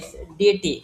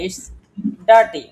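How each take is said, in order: First: The first vowel sounds like 'ee', with no r. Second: The first vowel sounds like 'ar', with an r. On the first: The speaker calls it wrong. "এটা যদি আমরা অশুদ্ধভাবে বলি তাহলে বলবো" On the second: The speaker calls it right. "আইটাকে যদি আমি বাদ দেই তাহলে এখানে কি হবে?"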